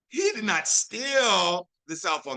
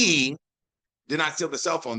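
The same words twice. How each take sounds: First: The stress falls on the word steal. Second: The stress falls on the word he. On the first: He only borrowed it. "that means he just borrowed it for a little bit" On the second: Someone else took it. "That implies that somebody else did"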